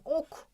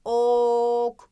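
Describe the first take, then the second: First: Said in the usual way. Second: "Ok" with a long held o; stretched initial O. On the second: Shown as a demonstration. Teacher stressing the first sound, long o in "Ok". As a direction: hold the o of "Ok" steadily before the k. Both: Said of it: "Yine başında çok fazla vurguluyorum".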